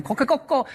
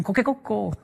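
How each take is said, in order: First: High crow, coquecoco; Japanese rooster crow. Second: Soft, higher coquecoco crow; a softer imitation of the crow; Japanese rooster crow. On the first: Retold or imitated. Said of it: "cacarea en japonés". (canto de gallo japonés agudo, coquecoco) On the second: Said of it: "ellos escuchan". (canto de gallo suave, coquecoco)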